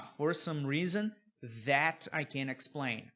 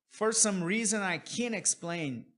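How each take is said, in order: First: Slow, with "that" set apart after a pause; THAT inserted. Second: Said in the usual way. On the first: Shown as a demonstration. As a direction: pause after "reason", then bring out "that". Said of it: "Aqui ele poderia falar". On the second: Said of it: "você pode tirar o that se você quiser".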